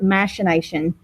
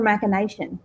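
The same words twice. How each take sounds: First: The 'ch' is said as an SH sound. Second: The 'ch' is said as a K sound. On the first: "I believe the British pronunciation, they pronounce it machination" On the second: "we put the C H as a K sound"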